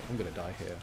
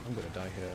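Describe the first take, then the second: No difference in how they are said.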